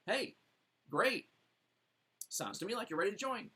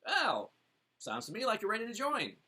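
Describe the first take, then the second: First: Quick, higher cheerful close; upbeat closing line. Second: Bright, higher assured close; confident closing line. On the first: Coach demoing the close to a ready buyer, quick and upbeat. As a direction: rush in gladly with the close. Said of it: "What's next? Join". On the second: Coach demoing to the prospect, confident and assured. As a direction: state it like the natural next step. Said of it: "what's the closing question, statement?". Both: Shown as a demonstration.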